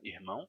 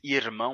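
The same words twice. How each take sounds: First: The R is an aspirated, breathy sound. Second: The R is a tapped, non-aspirated sound. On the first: This is the speaker's own accent. "porque o meu R é aspirado" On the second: This is not the speaker's own accent. "no meu sotaque não mais irmão"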